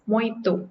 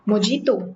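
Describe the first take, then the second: First: The middle consonant is an 'h' sound. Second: The middle consonant is a 'j' sound. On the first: The speaker calls it right. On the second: The speaker calls it wrong.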